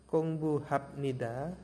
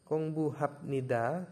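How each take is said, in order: Both takes have the same delivery.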